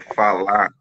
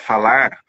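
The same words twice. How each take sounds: First: The word ends without the final r. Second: The word ends with a full final r. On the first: "eu não terminava as palavras" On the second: "ao invés de falar"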